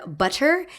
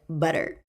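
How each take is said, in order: First: The middle consonant is a crisp, strong T. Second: The middle consonant is a soft D-like sound. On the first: "pronounced with strong T's" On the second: "instead of like butter"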